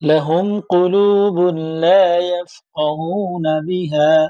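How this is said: The recitation stops fully after bihā. The speaker calls it wrong. "আমি তো থামলাম"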